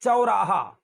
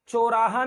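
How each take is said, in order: First: चौराहा as "cha-oraha"; gliding "chau" at the start of चौराहा; correct double vowel. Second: चौराहा as "choraha"; pure "o" in the start of चौराहा; चौराहा with no "a" before the "o"; wrong single vowel. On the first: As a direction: open चौराहा on "a", glide to "o". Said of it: "चौ है, च ओ". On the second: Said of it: "चौराहा नहीं है". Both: Shown as a demonstration.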